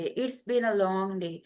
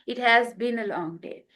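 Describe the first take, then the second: First: 'It has' is contracted to 'it's'. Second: 'It has' is said in full.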